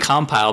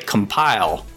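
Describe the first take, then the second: First: The stress is on the first syllable. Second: The stress is on the second syllable. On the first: It is the company name as the group says it. The speaker calls it right. "We sound like we're all saying compile" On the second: It is said like the verb for compiling code. The speaker calls it wrong. "I've heard some people say compile, right? Like the verb?"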